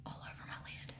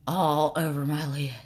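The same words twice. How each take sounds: First: Barely audible whisper to oneself; absent-minded whisper while concentrating. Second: Said in the usual way. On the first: Real, not acted. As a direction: repeat it under your breath in a whisper. Whispers it to herself while applying.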